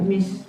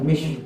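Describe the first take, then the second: First: The word begins with an s sound. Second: The word begins with an sh sound. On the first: "bukan mis" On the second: "bukan mish, salah"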